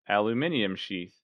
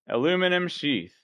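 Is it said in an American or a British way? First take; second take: British; American. First: Aluminium is said the British way, five syllables. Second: Aluminum is said the American way, four syllables.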